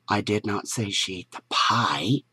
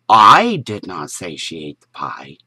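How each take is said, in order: First: The stress is on "pie". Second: The stress is on "I".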